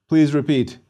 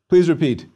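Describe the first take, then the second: No difference in how they are said.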